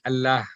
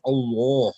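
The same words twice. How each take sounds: First: "Allah" with a thin, light L and open front a; flat Allah. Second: "Allah" with a dark L and rounded aw, like al-law; full, heavy Allah. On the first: Teacher shows the sound after zair, "Allah" said flat. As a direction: keep "Allah" flat, like al-laah with a light lah. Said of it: "pronunciation of Allah will be flat". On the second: Teacher contrasts the other examples, "Allah" said full. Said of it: "the answer will be with a pour". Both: Shown as a demonstration.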